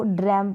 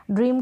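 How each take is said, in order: First: ड्रैम with an open ae, like "dram"; wrong open vowel. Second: ड्रीम with a long ee, rhyming with "team". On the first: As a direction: say ड्रैम to rhyme with "ham". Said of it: "जो कि गलत होगा". (ड्रैम, ऐ की आवाज़ के साथ) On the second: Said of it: "यहाँ पर ड्रीम पढ़ेंगे". (ड्रीम, बड़ी ई के साथ) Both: Shown as a demonstration.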